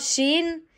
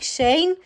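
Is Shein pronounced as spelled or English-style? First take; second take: English-style; as spelled. First: The name is pronounced with an English accent. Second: The name is pronounced as its letters read in Romanian. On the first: "pronunți așa corect când zici probabil cu accentul ăla din, nu știu, accentul englezesc. Da, așa" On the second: "Sunt învățată să zic Shein și Temu. Exact așa cum se scrie"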